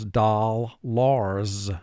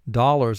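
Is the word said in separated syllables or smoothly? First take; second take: separated syllables; smoothly. First: The word is split into two separate syllables. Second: The word is said smoothly as one unit.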